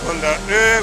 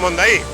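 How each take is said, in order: First: It ends in a different, non-Spanish vowel sound. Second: It is read as spelled, ending in plain 'i'. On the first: The speaker calls it right. "se pronuncia algo así como Mondaú" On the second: The speaker calls it wrong. "no se pronuncia Mondaí"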